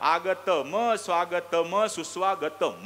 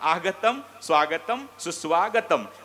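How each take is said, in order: First: Each word ends in a full ma syllable. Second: Each word ends in a bare m sound. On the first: "त्यात जर स्वर टाकला तर" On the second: "शेवटचं म लंगड झालं नाही का"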